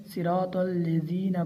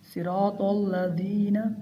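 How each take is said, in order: First: "अल्लज़ीना" mispronounced as "allezina"; wrong vowel demo. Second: "अल्लज़ीना" with an "a" after the doubled lam; correct vowel demo. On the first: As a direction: put a kasra under the lam of "अल्लज़ीना". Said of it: "ये बहुत बड़ी गलती है". ("अल्लज़ीना" में लाम के नीचे कसरा) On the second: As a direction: say "अल्लज़ीना" with fatha on lam, not kasra. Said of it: "लाम के नीचे कसरा पढ़ते हैं". ("अल्लज़ीना" में लाम पर ज़बर) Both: Shown as a demonstration.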